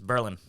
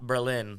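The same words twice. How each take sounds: First: It uses the local New Hampshire pronunciation. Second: It uses the pronunciation of the German city. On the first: This is the town in New Hampshire. The speaker calls it right. "I believe it's Berlin" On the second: This is the city in Germany. The speaker calls it wrong. "not Berlin like Germany"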